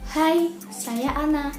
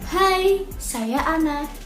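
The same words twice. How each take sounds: First: It is spoken at a low volume. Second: It is spoken at a medium volume.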